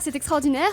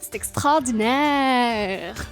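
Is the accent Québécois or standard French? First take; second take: standard French; Québécois. First: It is said in a standard French accent. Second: It is said in a Québécois accent, vowels drawn out. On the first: The speaker calls it wrong. "on ne dira pas" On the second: The speaker calls it right. "il faut laisser traîner les voyelles"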